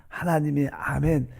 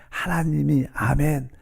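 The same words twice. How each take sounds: The two takes are said the same way.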